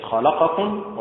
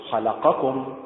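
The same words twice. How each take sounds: First: خلقكم stressed on the second vowel, rising; wrong stress. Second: خلقكم slow, stress on the kha; correct stress. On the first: Teacher showing the incorrect dialect form. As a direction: lean on the middle syllable of خلقكم. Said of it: "وليست خلقكم". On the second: Teacher giving the correct classical pronunciation. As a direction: hit the first syllable of خلقكم. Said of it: "خلقكم هكذا". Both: Shown as a demonstration.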